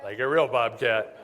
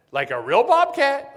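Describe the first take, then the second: First: Laughing confirmation. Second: High, loud and slow, in disbelief; incredulous question. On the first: Answering the caller's confusion about the bobcat, laughing. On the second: Caller hearing about a wild bobcat, asking high and loud in disbelief. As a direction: ask it as if you can't believe it. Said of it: "She goes". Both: Retold or imitated.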